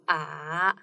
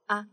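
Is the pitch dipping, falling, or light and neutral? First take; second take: dipping; neutral. First: The pitch dips down and then rises. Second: The syllable is short, light and neutral. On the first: "tone is a little bit twisted" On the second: "The fifth one is like a neutral one"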